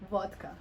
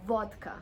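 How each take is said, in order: Both takes have the same delivery.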